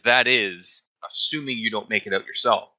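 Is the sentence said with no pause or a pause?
pause. It is said with a slight pause inside.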